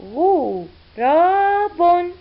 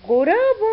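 First: Slow blended reading. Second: Said in the usual way. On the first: Shown as a demonstration. Teacher blending letters for pupils, very slowly drawn out. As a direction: stretch غراب out slowly, sound by sound. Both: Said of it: "والحرف الأخير بن".

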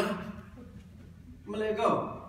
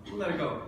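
First: Put-on slow drawn-out Australian accent. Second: Said in the usual way. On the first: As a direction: stretch it out in a put-on Aussie voice. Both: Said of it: "this awful Australian accent".

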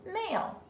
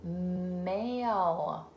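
First: "Male" said quickly and higher; bright quick read. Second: "male" stretched slowly; slow sounding out. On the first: Teacher reading "Male" quickly to the child. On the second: Teacher modelling "male" slowly for the child. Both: Shown as a demonstration. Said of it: "my next one is".

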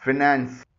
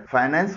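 First: फाइनेंस with short first vowel, "fi-NANS"; model pronunciation. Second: फाइनेंस starting "fie"; common pronunciation. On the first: Teacher modelling for learners, फाइनेंस as fi-nans. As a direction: say फाइनेंस without any "fie". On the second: Teacher showing learners the usual form, फाइनेंस with "fie". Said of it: "आमतौर पर लोग इसे फाइनेंस बोलते". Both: Shown as a demonstration.

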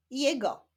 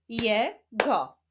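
First: Said in the usual way. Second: "Je, go" as two separate syllables, pause between. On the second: Shown as a demonstration. Teacher continuing the reading practice, "Je, go" split apart. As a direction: sound out "Je", stop, then "go". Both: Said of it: "Ćwiczmy dalej".

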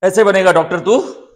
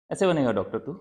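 First: Very loud, high angry yell; furious shout. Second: Firm, raised-voice reproach; stern scolding. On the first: Parent raging at Adi over becoming a doctor, furious shout. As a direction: explode at the child at full volume. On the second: Parent scolding Adi over becoming a doctor, stern. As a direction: scold with a falling, heavy tone. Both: Acted.

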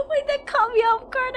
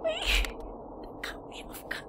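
First: High, breaking into laughter mid-line; half-laughing it out, caught off guard. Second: Breathless, slow, wheezing it out through laughter; laughed out of voice, barely voiced; wheezy laughing. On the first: Streamer caught off guard by a funny clip, laughing. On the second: Streamer repeats the line while wheezing with laughter. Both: Real, not acted. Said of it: "I'm laughing".

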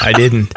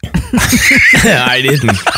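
First: Said in the usual way. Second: Laughing through the words. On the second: Real, not acted. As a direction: deny it while laughing. Laughing off a joke.

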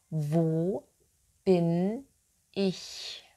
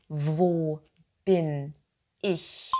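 No difference in how they are said.

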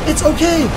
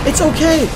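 Both takes have the same delivery.

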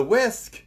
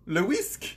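First: Said in the usual way. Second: "le whisk" in a French accent; English "whisk" turned French. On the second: Shown as a demonstration. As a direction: say "le whisk" as a French speaker would. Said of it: "you just use the English word with a French accent".

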